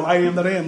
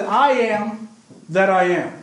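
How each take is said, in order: First: Said in the usual way. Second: Slow, weighty declaration as God; God's declaration. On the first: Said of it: "in English, we go". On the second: Acted. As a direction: state it slowly, as God speaking. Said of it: "And God said".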